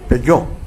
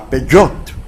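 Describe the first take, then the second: First: The word ends on a vowel, no t. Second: The word ends with an audible t sound.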